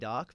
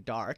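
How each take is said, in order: First: It is said in a non-American accent. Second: It is said in an American accent. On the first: This is how the speaker normally says it. "I would usually say dark" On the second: The speaker is picking up a new way of speaking. "now I'm starting to say dark"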